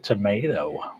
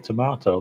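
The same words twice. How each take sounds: First: It is said with an American accent. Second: It is said with a British accent.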